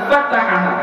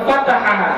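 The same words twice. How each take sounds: The two takes are said the same way.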